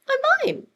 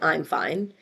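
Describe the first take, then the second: First: It is said in a strained, upset tone. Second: It is said in a calm, plain tone. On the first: The speaker is not really fine. "his facial or his vocal tone said" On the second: The speaker is fine. "he said"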